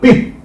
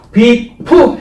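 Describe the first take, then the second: First: The final p is held back without a vowel. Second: The final p is released with an added vowel. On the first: "이렇게 한 음절로 해도 된다" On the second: "일본식 한국식으로 하면 비프 해버리는 거고"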